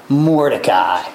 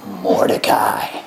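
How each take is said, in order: First: Said in the usual way. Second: "Mordecai" whispered low and slow; whispered reveal. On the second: Shown as a demonstration. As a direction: breathe "Mordecai" as a secret reveal. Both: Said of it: "guess who he puts it on".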